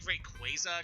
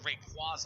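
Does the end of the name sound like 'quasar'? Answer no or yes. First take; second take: yes; no. First: The ending sounds like the word 'quasar'. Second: The ending does not sound like 'quasar'. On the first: "it's supposed to be Rayquaza because its name is specifically in reference to quasars" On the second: "When I was a kid, I would definitely call it Rayquaza a lot"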